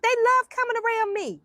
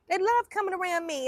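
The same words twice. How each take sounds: First: Pitched way up on "love"; "love" sung out high and bright; high delighted emphasis. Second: Said in the usual way. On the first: Real, not acted. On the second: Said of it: "but they love coming around me".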